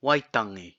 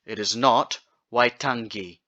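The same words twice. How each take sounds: First: Waitangi with a smooth ng, no hard g; correct ng. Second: Waitangi said with ng plus a hard g like finger; wrong hard g. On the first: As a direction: say Waitangi with ng flowing into i. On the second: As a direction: give waitangi a hard g to show the mistake. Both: Shown as a demonstration.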